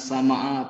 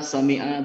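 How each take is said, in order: First: The vowel after the m is a. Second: The vowel after the m is i. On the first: The speaker calls it wrong. "bukan sama'a" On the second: The speaker calls it right. "itu saya dengar sami'a"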